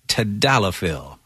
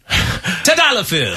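First: The word is said in a plain, ordinary way. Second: The word is said with a showy, theatrical flourish.

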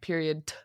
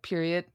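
First: The final T is said separately and strongly. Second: The final D and T blend together. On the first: "they like really emphasize it" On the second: "the D and the T just blend together"

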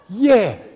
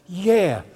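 First: It is said strongly, with more force. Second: It is said mildly, with little force.

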